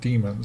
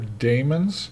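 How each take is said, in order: First: It is said like the word demons. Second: It is not said like the word demons. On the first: "a lot of people just call them demons" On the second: "It's spelled D A E M O N right there"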